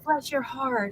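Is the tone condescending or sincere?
sincere. It sounds warm and genuinely sympathetic. The speaker truly feels sorry for the listener. "There's two types of bless your heart"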